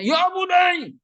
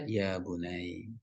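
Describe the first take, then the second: First: The tone is harsh and forceful. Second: The tone is gentle and soft. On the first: The speaker calls it wrong. "Kan nggak mungkin dia bacanya" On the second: The speaker calls it right. "dengan nada yang lembut, pelan-pelan"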